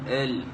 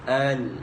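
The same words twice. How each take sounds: First: The vowel is said with the jaw nearly closed. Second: The vowel is said with the jaw wide open. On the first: The speaker calls it wrong. "Jangan ditutup al, al. Itu adalah cara salah" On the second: The speaker calls it right. "boleh dimasukkan satu jari"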